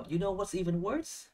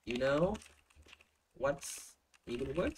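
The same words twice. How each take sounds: First: "you know what's even worse" in one high, linked run, rising at the end; linking phrase. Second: Slow, broken into "You know" and "what's even worse", each rising; slow model phrase. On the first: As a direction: pitch it up and glide through to "worse". (đọc liền mạch, cao giọng, lên giọng ở "worse") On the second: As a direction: pause after "know", stretch "even worse". (đọc mẫu chậm, ngắt sau "know") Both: Shown as a demonstration. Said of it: "nếu mà có được cái độ linking như này".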